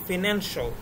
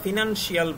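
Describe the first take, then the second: First: The ending is said as one syllable, 'shal'. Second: The ending is said as two syllables, 'shee-al'. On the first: The speaker calls it right. "আমাদের এটা হবে" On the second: The speaker calls it wrong. "এগুলো কিন্তু pronunciation ভুল"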